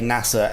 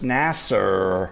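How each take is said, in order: First: The word ends in a plain vowel sound. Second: The word ends in an 'er' sound. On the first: This is the intended pronunciation. The speaker calls it right. "when they meant to say, say NASA" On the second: This is how the actors mistakenly said it. The speaker calls it wrong. "they end up saying Nas Nasser with an E R at the end"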